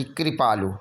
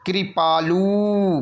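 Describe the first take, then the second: First: कृपालु lower with a brief lu; short final u. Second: कृपालु very slow with stretched loo; long final oo. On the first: Teacher giving the correction, कृपालु low with short lu. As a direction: clip the end of कृपालु. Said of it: "छोटा ऊ की मात्रा". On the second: Teacher exaggerating the error, कृपालु with long loo. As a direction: draw out the end of कृपालु. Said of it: "बड़ा ऊ की मात्रा". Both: Shown as a demonstration.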